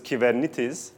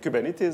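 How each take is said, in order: First: The word is said with Greek pronunciation. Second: The word is said with American pronunciation. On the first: The speaker calls it right. "the right way of saying Kubernetes is Kubernetes" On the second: The speaker calls it wrong. "in the U S and everyone started saying it Kubernetes"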